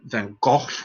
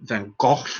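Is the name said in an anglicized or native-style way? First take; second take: native-style; native-style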